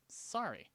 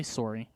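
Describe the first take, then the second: First: "Sorry" with an open AH, as SAH-ree; ah-vowel sorry. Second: "sorry" with a rounded OR, as SORE-ee; Canadian-style sorry. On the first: Retold or imitated. Storyteller apologizing after being bumped, "Sorry" said SAH-ree. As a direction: say "Sorry" higher, first vowel like "car". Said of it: "I don't say sorry. I'm not that Canadian". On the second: Shown as a demonstration. Showing the very Canadian way he avoids, "sorry" said SORE-ee. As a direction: say "sorry" with the first vowel like "sore". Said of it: "I'm not that Canadian".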